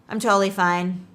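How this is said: It is said in a slightly angry tone. The person is annoyed but hides it. "the first one was a little bit angry"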